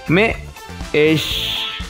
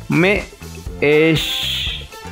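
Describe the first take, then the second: Both takes have the same delivery.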